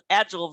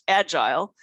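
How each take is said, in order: First: It is said with the American pronunciation. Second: It is said with a non-American pronunciation. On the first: "in the United States we call it agile" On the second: "versus agile"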